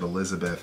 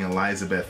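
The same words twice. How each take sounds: First: The second syllable is unstressed and said normally. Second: The second syllable is stressed and sounds like 'lie'. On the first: "instead of Elizabeth" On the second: "He kept saying Elizabeth ... I don't know if he's emphasizing lie"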